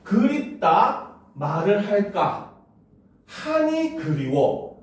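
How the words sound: It is read with hesitant pauses at breaks.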